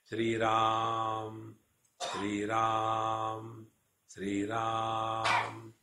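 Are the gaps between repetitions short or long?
short. The repetitions follow each other with short gaps.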